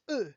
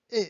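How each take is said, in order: First: E as "uh" with rounded lips. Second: E as a closed "ay". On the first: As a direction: round the lips on E, like French unaccented e. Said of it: "You round your lips". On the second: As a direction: say E as French é, lips unrounded. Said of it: "once you have the accent aigu, the sound becomes". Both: Shown as a demonstration.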